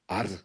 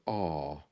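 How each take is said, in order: First: The R sound is strong and hard. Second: The R sound is weak and soft. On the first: "Is it hard like an R" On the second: "or is it soft like an R?"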